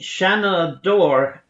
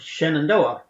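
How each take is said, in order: First: The word has an unusual, stilted pronunciation. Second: The word has its usual, standard pronunciation. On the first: This is how sailors sang it. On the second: This is the ordinary way to say it.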